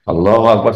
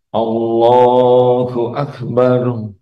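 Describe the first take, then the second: First: It is said quickly and hurriedly. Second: It is said slowly and calmly. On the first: The prayer is rushed without devotion. The speaker calls it wrong. "cepat, tidak tu'maninah" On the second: The prayer is done with devotion. The speaker calls it right. "Kalau orang yang khusyuk bagaimana? Enak"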